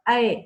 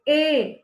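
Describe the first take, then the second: First: The vowel is an open ai sound. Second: The vowel is a plain e sound. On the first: The speaker calls it right. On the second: The speaker calls it wrong.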